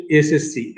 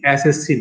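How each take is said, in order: First: এসএসসি as "es-es-si", closed e; teacher's clear এসএসসি, narrow e sounds; correct pronunciation. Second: এসএসসি as "æs-æs-si", open vowels; wrong pronunciation. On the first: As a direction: model এসএসসি with pure এ vowels. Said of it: "তখন সেটা হচ্ছে". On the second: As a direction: show the faulty এসএসসি with অ্যা. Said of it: "এসএসসি নয়". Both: Shown as a demonstration.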